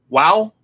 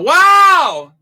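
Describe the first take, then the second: First: It is said quietly. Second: It is yelled loudly.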